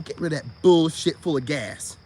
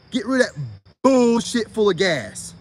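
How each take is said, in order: First: Said in the usual way. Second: Deliberate emphatic repeat; slower emphatic repeat. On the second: Shown as a demonstration. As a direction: hammer it home slowly.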